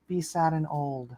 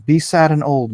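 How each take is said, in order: First: Softer, dreary mock voice; mock sad and old. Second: Said in the usual way. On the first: Streamer mocking Eden's wish, softer and dreary. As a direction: sound tired and old on purpose. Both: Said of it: "that's what she wants from me".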